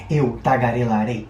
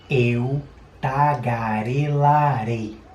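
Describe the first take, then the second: First: Spoken quickly with a brisk pace. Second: Spoken slowly with very exaggerated mouth movements. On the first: "Mais rápido então" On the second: "Tá vendo que eu exagerei bastante, né? Abri muito a boca"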